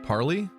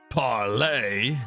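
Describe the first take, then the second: First: The word ends with an 'ee' sound. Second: The word ends with an 'ay' sound. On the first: This is how the character in the game says it. "Do some people pronounce it like that?" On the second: This is how it is said in the pirate movie. "I thought it was pronounced parlay"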